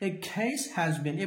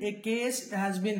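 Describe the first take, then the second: First: The k in case is forceful and aspirated. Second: The k in case is soft and unaspirated. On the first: The speaker calls it right. "ఎప్పుడైనా సితో ఏదైనా start అయితే ఇంగ్లీష్లో ఒత్తి చెప్తాం" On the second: The speaker calls it wrong. "కాదు"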